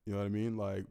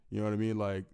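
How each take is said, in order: Both takes have the same delivery.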